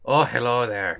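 It is said in a put-on Shrek voice.

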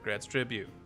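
It is said in an imitated character voice.

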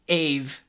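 It is said the English way, short first vowel.

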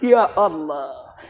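It sounds happy and pleased.

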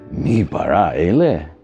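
It is said as a doubting, mocking question. It doubts that this thing could create anything. "we're saying it with a question mark"

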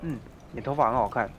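It is said smoothly and with certainty.

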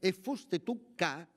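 The phrase ends with a closing, final fall. The sentence is complete. The speaker calls it wrong. "così sarebbe stato se ci fosse stato il punto di chiusura"

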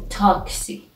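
The word is said with a Persian pronunciation. "in Persian we say taxi"

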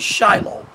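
The name is said with a Western English pronunciation. This is how Western Christians say it. The speaker calls it wrong. "in the West, Christians would say Shiloh"

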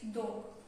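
The d is made with the tongue on the teeth. The speaker calls it wrong. "Мы все привыкли говорить «дог»"

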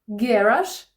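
It is said with the British stress pattern. "це британський"

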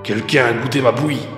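It is said in a big, gruff voice.

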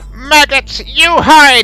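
It is said in a put-on evil voice.

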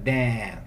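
The vowel is open and the R is dropped. "Mais aberto, né? Sem a ênfase no R"

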